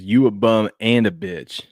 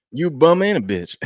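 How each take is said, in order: First: Slow lip-reading. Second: Higher, louder mock trash talk at Brooks. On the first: Retold or imitated. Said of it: "It says". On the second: Host acting Butler taunting Dillon Brooks, higher and louder. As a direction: spit it like a taunting player. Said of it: "Saying that to Dillon Brooks".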